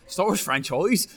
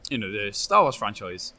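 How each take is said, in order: First: Put-on rolled-r West Country accent. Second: Said in the usual way. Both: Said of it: "in a West Country accent".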